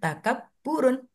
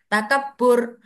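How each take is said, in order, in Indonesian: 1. Kata itu berakhir dengan tambahan suku kata -un. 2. Kata itu berakhir dengan bunyi r, tanpa -un. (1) "kalau dalam ininya tulisannya takaburun" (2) "Kalau kita ngomong biasa sih nggak usah ditanwinkan"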